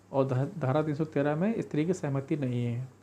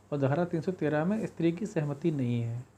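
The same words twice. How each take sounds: The two takes are said the same way.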